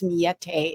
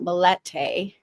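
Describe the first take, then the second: First: The double L is sounded like a Y. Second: The double L is sounded like an L. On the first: The speaker calls it right. "double L is generally pronounced like like a Y" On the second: The speaker calls it wrong. "So Miete is not Milete"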